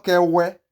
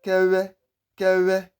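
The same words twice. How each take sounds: First: Kewe high, with a rounded English w; Kewe, open w without lip buzz; wrong plain w. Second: Kewe high, w squeezed through the lips; correct vw pronunciation. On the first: Teacher warning of the mistake, plain w. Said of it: "not Kewe". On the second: Teacher confirming the name, correct vw pronunciation. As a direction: Kewe slow, with a buzzing lip w. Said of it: "It is Kewe". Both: Shown as a demonstration.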